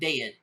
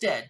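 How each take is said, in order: First: It is said in a Southern drawl. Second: It is said in a plain, neutral accent. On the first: "D E D, because that's what you get here in the South" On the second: "Not just dead, D E A D"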